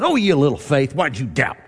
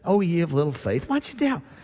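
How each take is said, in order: First: It is said harshly and scornfully. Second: It is said gently and kindly.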